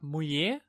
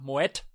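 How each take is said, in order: First: The final t sound is silent. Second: The final t sound is pronounced. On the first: The listener did not understand the name. "3-mal gesagt Mouillet und jetzt immer noch nicht verstanden" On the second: The listener understood the name. "vielleicht ist bei mir in der Aussprache was falsch und dann habe ich gesagt Mouet"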